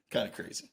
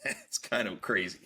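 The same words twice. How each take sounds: First: Breathy under-the-breath repeat; whispered aside. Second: Said in the usual way. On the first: Real, not acted. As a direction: whisper it to yourself. Laughing remark, then whispered repeat.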